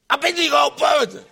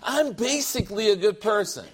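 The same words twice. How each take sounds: First: It is said in a put-on Asian accent. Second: It is said in the speaker's plain accent. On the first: "Those words in China. ... everything I do has a Japanese accent" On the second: "They say it those exact words every time"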